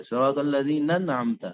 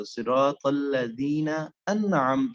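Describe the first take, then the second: First: الذین انعمت run together, the two nuns joined; hamza dropped. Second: صراط الذین انعمت very slow, each word separated out; slowed-down recitation. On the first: Teacher showing the missing hamza, انعمت fused onto الذین. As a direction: glide from الذین into انعمت with no glottal catch. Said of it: "یہ نون کو نون کے ساتھ ملایا". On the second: Teacher stopping to check what was read, slow separated انعمت. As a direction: stretch الذین and set انعمت apart after it. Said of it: "اب اگر آپ ادھر تھوڑا رک جائیں". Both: Shown as a demonstration.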